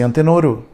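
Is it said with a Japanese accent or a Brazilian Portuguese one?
Japanese. It is said like a Japanese speaker, adding a final vowel.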